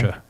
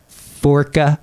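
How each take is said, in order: First: The middle consonant is a sh sound. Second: The middle consonant is a hard k sound. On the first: The speaker calls it right. "it's more of a sh sound" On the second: The speaker calls it wrong. "I know I'm probably going to pronounce this wrong"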